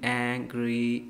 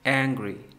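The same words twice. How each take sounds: First: Both syllables are even and balanced. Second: The first syllable is stretched; the end is released.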